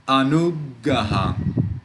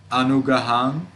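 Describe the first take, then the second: First: Anugaham slow, with the g held before release; pause at the G. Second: Anugaham run through evenly, rising at the end; single consonant. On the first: Teacher contrasting for learners, anugaham with a little pause at the g. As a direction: get stuck on the g in anugaham. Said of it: "made a little pause at the G". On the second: Teacher contrasting for learners, Anugaham without a held g. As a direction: say Anugaham with one short g and no pause. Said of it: "Can you hear the difference?". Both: Shown as a demonstration.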